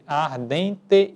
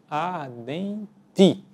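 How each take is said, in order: First: The final vowel sounds like E. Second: The final vowel sounds like I. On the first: "que falada pausadamente nós vamos dizer ardente" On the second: "e não ardente"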